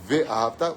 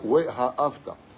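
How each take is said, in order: First: The word begins with a V sound. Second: The word begins with a W sound. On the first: The speaker calls it wrong. "tu dis pas" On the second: The speaker calls it right. "quand tu dis Waouh, c'est le Vav qui sort"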